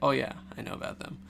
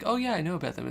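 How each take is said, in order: First: It sounds ominous and knowing. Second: It sounds casual and friendly.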